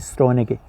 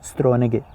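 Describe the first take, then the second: Both takes have the same delivery.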